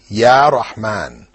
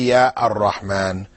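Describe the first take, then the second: First: Rahman follows ya with no article sound. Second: An 'ar' article sound comes before Rahman. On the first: The speaker calls it right. "you must drop the definite article. So you have to say" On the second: The speaker calls it wrong. "You can't say"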